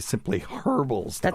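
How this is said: It is said in a British accent. "as they would say uh, in the U K"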